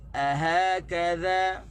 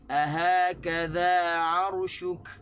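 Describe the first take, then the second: First: Slow and louder, stress on "ha" and "kaf"; "Ahakadha" slowly, hitting "ha" and "ka"; correct stress. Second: Slow, louder, stressed on the first "a"; "ahakadha" with the stress wrongly on the first "a". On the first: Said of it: "Tu cara lantunan dia lah". (tekanan pada ha dan kaf) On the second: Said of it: "Kita tak boleh baca". (tekanan salah pada "a") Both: Shown as a demonstration.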